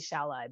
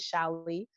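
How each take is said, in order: First: The name ends in a vowel other than 'ee'. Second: The name ends in an 'ee' sound. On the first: This is how other people say the name. The speaker calls it wrong. "I let the rest us call me Shallai" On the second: This is the name's true pronunciation. The speaker calls it right. "but it is Shally. Like Bruce Lee"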